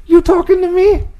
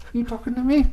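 First: Much higher, bad Italian accent; worst Italian accent. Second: High, quiet mock Italian "you talking to me"; a clumsy Italian-American tough guy try; bad Italian accent. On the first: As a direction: ham up a tough Italian-American taxi driver. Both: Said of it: "That was the worst Italian accent ever".

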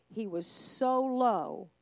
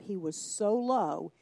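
First: "so" stretched very slowly; stress on so. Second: "low" said slow and drawn out; stress on low. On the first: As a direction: draw out "so" heavily. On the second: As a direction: lean on "low", slowly. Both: Shown as a demonstration.

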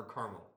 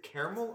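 First: "caramel" said as CAR-mul; "caramel" as CAR-mul, the other option; CAR-mul pronunciation. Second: "caramel" said as CARE-uh-mul; "caramel" beginning CARE, offered as one option; CARE-uh-mel pronunciation. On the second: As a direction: say "caramel" with three syllables, opening like "care". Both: Shown as a demonstration. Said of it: "how everybody pronounces it".

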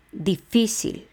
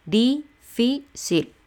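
First: Difícil as one word, FÍ stressed; difícil unbroken with weight on the second I. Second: Difícil split as DI, FÍ, CIL with pauses; difícil slowly chopped into three syllables. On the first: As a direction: lean on the middle syllable of difícil. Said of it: "va en la I". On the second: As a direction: count out difícil in three separate beats. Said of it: "Tres sílabas". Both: Shown as a demonstration.

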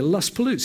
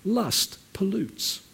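First: Said in the usual way. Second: Slow, deliberate two words; slow emphasis. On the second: Shown as a demonstration. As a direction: lay each word down slowly. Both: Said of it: "repeated for emphasis".

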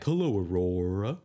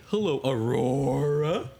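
First: Slow lower lion greeting. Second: Slow drawn-out lion greeting. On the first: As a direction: lower and slower, like a toy lion. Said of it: "he'll say, like". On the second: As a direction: greet her slowly as the lion. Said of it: "I'll bring the lion out and I'll say". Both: Acted.

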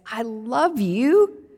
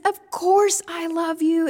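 First: A slow, louder, earnest I love you; slow earnest answer. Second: Higher and louder, exasperated; fed up at being asked again and again. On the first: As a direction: stretch it out and mean it. Peter answers Jesus a second time. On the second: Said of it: "now Peter must be exasperated". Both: Acted.

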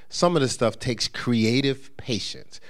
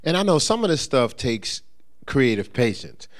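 First: Slow, deliberate "some of this stuff takes creative patience" with every word weighed; emphasized repeat. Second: Said in the usual way. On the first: Shown as a demonstration. Preacher repeating his point to the congregation, slow and emphatic. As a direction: lean on "creative patience", slowing down to drive it home. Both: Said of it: "I'm gonna emphasize that".

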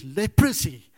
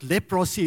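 First: Leprosy as LEP-ruh-see, middle vowel reduced; corrected pronunciation. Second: Leprosy with a full O, lep-ROSS-ee; wrong pronunciation. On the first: Preacher sharing what online search taught, corrected leprosy. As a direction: punch the start of leprosy and swallow the O. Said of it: "it's leprosy". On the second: Preacher showing the congregation the mistake, mispronounced leprosy. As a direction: sound out the middle of leprosy as "pross". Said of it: "it's not leprosy". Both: Shown as a demonstration.

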